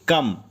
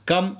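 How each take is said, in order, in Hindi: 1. यह शब्द k ध्वनि से शुरू होता है। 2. यह शब्द k ध्वनि से शुरू होता है।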